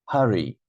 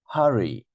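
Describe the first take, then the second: No difference in how they are said.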